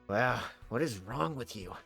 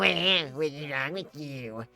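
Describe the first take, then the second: First: It is said in a normal voice. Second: It is said in a nasal voice.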